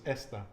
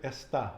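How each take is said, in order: First: "esta" stressed at the start, ES-ta; "esta" with a light, unstressed final A; stress on first syllable. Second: "está" stressed on the end, es-TÁ; "está" with the second syllable raised; stress on final syllable. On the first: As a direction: lean on the E of "esta". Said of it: "where am I putting the, the emphasis". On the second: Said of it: "where I'm putting the emphasis". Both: Shown as a demonstration.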